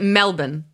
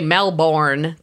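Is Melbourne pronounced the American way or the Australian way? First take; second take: Australian; American. First: It is said with a local Australian pronunciation. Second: It is said with an American pronunciation. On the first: This is how locals say it. The speaker calls it right. "I think they pronounce it Melbourne" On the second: This marks the speaker as an outsider. The speaker calls it wrong. "if you say Melbourne, they're going to be like, oy, Americans"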